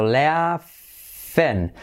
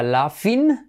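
First: "laughing" drawn out as "LEAA-fen"; very slow "laughing", split "lea... fen"; E in the ending. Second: "laughing" as "LA-fin", pure A and I; wrong I ending. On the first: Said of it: "la I como una E". ("laughing" lento, como "léa-fen") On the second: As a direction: say "laughing" as a Spanish-sounding "lafin". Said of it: "no sería laughing". ("laughing" pronunciado "lafin") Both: Shown as a demonstration.

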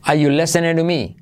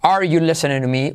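First: "Are" as a plain "ah" before "you"; dropped R. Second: "Are" with its final R sounded; R pronounced. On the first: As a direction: leave the R out of "Are". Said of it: "se puede no pronunciar". ("Are" sin pronunciar la R) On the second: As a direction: sound the R in "Are" before "you". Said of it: "la R de are". ("Are" pronunciando la R) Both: Shown as a demonstration.

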